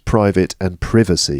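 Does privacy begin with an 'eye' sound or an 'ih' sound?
ih sound. Privacy begins with a short vowel unlike private. The noun differs from the adjective. "but for us it's private and privacy"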